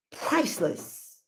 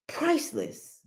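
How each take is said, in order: First: Priceless said slow and soft, each syllable stretched; drawn-out priceless. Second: Priceless repeated much higher and softer, like a hushed marvel; high, soft echo. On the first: To her viewers, savoring the word priceless slowly. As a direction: linger on priceless, slow and hushed. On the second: Echoing herself to viewers, priceless lifted high and hushed. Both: Shown as a demonstration.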